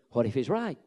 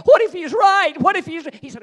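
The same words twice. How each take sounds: First: Said in the usual way. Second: Much higher, much louder cry; anguished shout. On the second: Shown as a demonstration. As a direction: cry out the doubt. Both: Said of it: "it hit me again".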